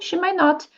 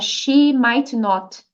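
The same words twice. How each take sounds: First: The words run quickly together without breaks. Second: Each word is said slowly and separately. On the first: The speaker calls it right. "Fala assim" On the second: The speaker calls it wrong. "Senão fica muito devagar, fica não natural"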